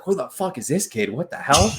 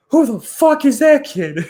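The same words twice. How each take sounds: First: Lightly voiced amazement, slightly higher; milder retold disbelief. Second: High, loud disbelieving blurt; stunned outburst. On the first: Retelling the veteran's reaction between whistles, mild disbelief. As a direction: retell the shock with less force. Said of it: "just like". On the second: Retold or imitated. Teammate amazed by the new kid, high loud disbelief. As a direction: blurt it out in pure shock at the rookie. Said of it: "And he's like".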